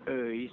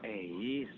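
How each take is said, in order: First: The first vowel is the Sundanese 'eu' sound. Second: The first vowel is a plain 'e' sound. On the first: The speaker calls it right. "Euis, Jo, bukan Eis" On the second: The speaker calls it wrong. "bukan Eis"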